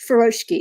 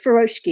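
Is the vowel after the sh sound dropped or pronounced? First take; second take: dropped; dropped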